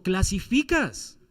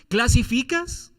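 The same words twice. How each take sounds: First: Clasificas drawn out slowly and landed with a falling tune; slow falling statement. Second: ¿Clasificas? drawn out slowly with a rising questioning tune. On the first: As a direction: stretch out clasificas and let it drop. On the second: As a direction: stretch ¿Clasificas? into an inviting question. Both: Shown as a demonstration.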